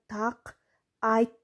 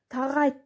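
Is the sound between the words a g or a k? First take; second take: k; g. First: The k is kept, words said separately. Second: The k softens to g, words run together. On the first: This is how it is written. "жазылышында так айт деп жазышыбыз керек" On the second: This is how it is naturally spoken. "Айтылышында тагайт деп коебуз"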